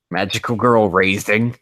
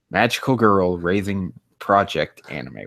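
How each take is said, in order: First: Incredulous. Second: Said in the usual way. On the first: Real, not acted. Streamer rereading a weird anime title, incredulous and louder. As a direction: say it like you can't believe the title. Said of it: "What do you mean?".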